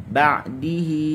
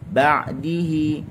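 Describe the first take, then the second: The two takes are said the same way.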